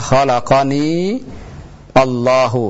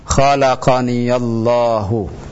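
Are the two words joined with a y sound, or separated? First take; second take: separated; joined. First: The two words are said separately, without linking. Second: The words are linked by a y sound with a. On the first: "Kalau kita pisah antara kata khalaqani dengan Allah" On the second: "Tapi kalau kita mau sambung, maka seperti ini"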